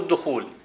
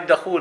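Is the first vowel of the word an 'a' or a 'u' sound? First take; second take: u; a. First: The first syllable has a 'u' vowel (dukhool). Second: The first syllable has an 'a' vowel (dakhool). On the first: It means the act of entering a house. The speaker calls it wrong. "مو الدخول من دخل الدار" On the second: It is the name of a place. The speaker calls it right. "الدال مفتوح"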